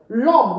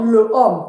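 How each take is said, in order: First: The article is elided and joined to the noun. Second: The article is said fully, apart from the noun. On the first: The speaker calls it right. "L'homme, not le homme" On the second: The speaker calls it wrong. "not le homme"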